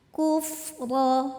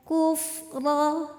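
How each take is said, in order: The two takes are said the same way.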